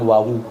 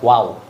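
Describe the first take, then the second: First: The name ends with an added final vowel. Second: The name ends on a bare consonant. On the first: This is how Javanese speakers name the letter. The speaker calls it wrong. "Kalau orang Jawa bilang wawu" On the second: This is how people here name the letter. The speaker calls it right. "Kalau kita wow. ... yang benar wow"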